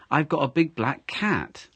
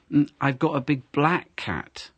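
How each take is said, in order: First: Cat carries the stress, slowly spoken. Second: Black given the weight, big left light; stress on black. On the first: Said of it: "So you've got a cat and not, uh, a dog". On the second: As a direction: lean on the word black. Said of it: "this time you've stressed the colour". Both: Shown as a demonstration.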